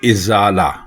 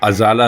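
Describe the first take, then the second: First: The word begins with an 'i' vowel. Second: The word begins with an 'a' vowel. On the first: The speaker calls it right. "अलिफ के नीचे जेर" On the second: The speaker calls it wrong. "अज़ाला नहीं"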